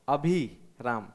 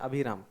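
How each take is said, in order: First: The vowel after 'bh' is held long. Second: The vowel after 'bh' is kept short. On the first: "लेकिन वो अभी लंबा हो गया" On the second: "इसमें अभिराम छोटा"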